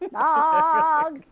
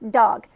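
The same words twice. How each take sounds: First: The vowel is held long before the G. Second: The vowel is short, moving quickly to the G. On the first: It sounds more like opera. The speaker calls it wrong. "We don't want to hang in the middle on a vowel" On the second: It suits commercial music. The speaker calls it right. "we would use that D sound to get to the G sound and just dog"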